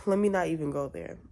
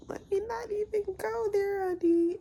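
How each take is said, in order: First: Said in the usual way. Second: Much higher, sing-song sassy put-on; high mock-sassy honey. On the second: Shown as a demonstration. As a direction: toss it off like a sassy diva.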